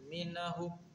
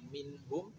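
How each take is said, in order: First: An extra a vowel separates the n and h. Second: The n joins the h with no vowel between. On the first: The speaker calls it wrong. "minahum na-nya hilangkan" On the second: The speaker calls it right. "minhum jangan sampai"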